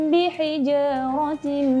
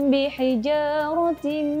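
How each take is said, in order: The two takes are said the same way.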